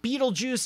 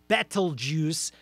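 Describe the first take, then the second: First: The name sounds exactly like 'beetle juice'. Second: The name does not sound like 'beetle juice'. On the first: The speaker calls it wrong. "not Beetlejuice as in the movie" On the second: The speaker calls it right. "I think, is the more accurate pronunciation"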